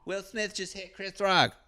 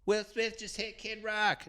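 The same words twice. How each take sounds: First: High mock wife voice saying "Chris Rock"; higher imitated wife, gets the name right; high put-on wife voice, "Chris" said clearly; wife's corrected take. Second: Wife's wrong take. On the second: Retold or imitated. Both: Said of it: "she says it right".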